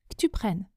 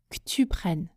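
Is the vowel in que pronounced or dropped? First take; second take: dropped; dropped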